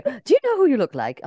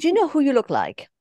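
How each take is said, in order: First: Put-on light British accent, same question; English accent. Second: Put-on lightly English-accented question. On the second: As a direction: ask it with a British accent. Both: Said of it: "hörst du den englischen Akzent?".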